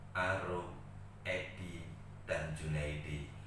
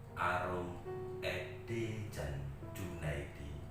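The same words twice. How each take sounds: Both takes have the same delivery.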